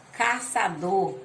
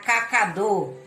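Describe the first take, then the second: First: "caçador" with C as S, slowly; cedilla S sound. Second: "cacador" with C said as K; hard K sound. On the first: Teacher reads the cedilla example, "caçador" with S. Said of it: "com som da cedilha indica som de letra S". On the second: Teacher shows the word without cedilla, "cacador" with K. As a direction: say "cacador" with a K in the middle. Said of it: "Se eu não botar a cedilha". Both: Shown as a demonstration.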